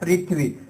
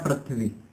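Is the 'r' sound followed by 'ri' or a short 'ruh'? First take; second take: ri; ruh. First: The 'r' is said with an 'i' vowel. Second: The 'r' is said with a short 'uh' vowel. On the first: The speaker calls it right. "जैसे उच्चारण होता है" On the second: The speaker calls it wrong. "रह का उच्चारण करते हैं"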